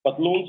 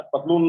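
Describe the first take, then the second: First: पतलून्स with a clear s after the n; loud teacher's पतलून्स, closing on s; final s sounded. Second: पतलून ending on n, no s; loud पतलून, stopping at the n without an s; wrong singular form. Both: Shown as a demonstration. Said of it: "पतलून नहीं होता".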